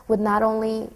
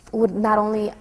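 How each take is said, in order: Both takes have the same delivery.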